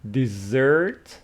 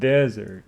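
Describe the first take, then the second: First: The stress is on the second syllable. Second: The stress is on the first syllable. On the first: It means a sweet course you can eat. "So it is dessert with the stress on the second syllable" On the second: It means a dry place like the Sahara. "But this one is desert"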